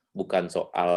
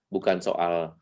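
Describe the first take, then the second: No difference in how they are said.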